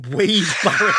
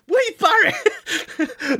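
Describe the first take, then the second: First: Said in the usual way. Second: A laughing, incredulous yelp of the name; laughing disbelief. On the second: Real, not acted. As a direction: repeat the name high and slow through a laugh.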